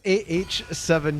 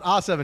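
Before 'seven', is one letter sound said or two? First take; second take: two; one. First: Two letter sounds come before 'seven'. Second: One letter sound comes before 'seven'. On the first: The speaker calls it right. "it's A H seven here" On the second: The speaker calls it wrong. "It's not A seven"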